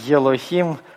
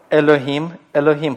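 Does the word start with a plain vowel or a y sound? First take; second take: y sound; plain vowel. First: The word begins with a y sound before the vowel. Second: The word begins directly with a plain vowel. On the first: The speaker calls it wrong. "Почему вы все хотите йод добавить к букве алеф? ... не надо так" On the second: The speaker calls it right. "просто начинайте говорить гласное, просто не надо никакого йод там произносить"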